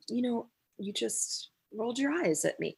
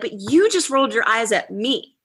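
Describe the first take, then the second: First: It is said in a soft, gentle tone. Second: It is said in an accusing, pointed tone.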